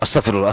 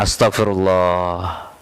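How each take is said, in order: First: It is said in a fearful, panicked way. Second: It is said in a calm, reflective way. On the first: The speaker is afraid. The speaker calls it wrong. "itu mah takut" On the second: The speaker is reflecting on their own sins. The speaker calls it right. "Yang betul gimana?"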